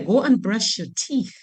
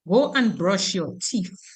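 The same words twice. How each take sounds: First: The final sound in teeth is th. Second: The final th in teeth is replaced. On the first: This is how others say it. "You don't hear" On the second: This is how Dominicans say it. "we say teeth"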